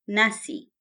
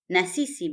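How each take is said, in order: First: It is said as one contracted word. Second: It is said as two full words. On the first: "Na sisi becomes nasi" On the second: "Na sisi becomes nasi"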